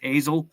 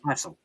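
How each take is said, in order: First: The middle consonant is a buzzing z sound. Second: The middle consonant is a hissing s sound. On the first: The speaker calls it wrong. "we're mispronouncing it. Everybody says Hazel" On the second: The speaker calls it right. "but it's pronounced Hassel"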